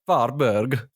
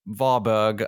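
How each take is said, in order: First: It is said in a Swedish chef voice. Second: It is said in his normal voice.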